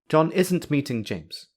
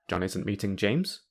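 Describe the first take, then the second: First: It sounds like a firm, certain statement. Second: It sounds like a surprised question. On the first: The speaker is sure it is not happening. "the speaker is certain that John is not meeting James" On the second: The speaker doubts news they were just told. "the speaker is asking a question"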